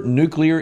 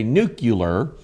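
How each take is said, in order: First: Said in the usual way. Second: Nuclear said as nu-cu-lar, mocking; nucular mispronunciation. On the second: Shown as a demonstration. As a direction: imitate those who say nuclear as nucular, lower and softer. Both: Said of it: "or as some say".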